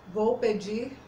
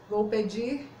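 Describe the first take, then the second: Both takes have the same delivery.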